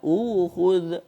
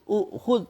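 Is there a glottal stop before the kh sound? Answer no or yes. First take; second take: no; yes. First: A long u vowel with no glottal stop. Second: A glottal stop comes after the first vowel. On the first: "hamzah tu diubah mengikut baris sebelum" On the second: "Berhimpun dua hamzah. Hamzah kedua mati"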